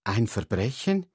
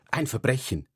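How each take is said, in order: First: "Ein Verbrechen?" asked with the tune rising at the end; echoing question. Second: Said in the usual way. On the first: Shown as a demonstration. Friend echoing the word crime back in doubt, rising.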